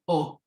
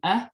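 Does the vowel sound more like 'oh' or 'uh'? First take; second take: oh; uh. First: The vowel sounds like a rounded 'oh'. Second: The vowel sounds like a short 'uh'. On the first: "some people might pronounce it more as an oh" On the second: "some people might pronounce it more of an uh"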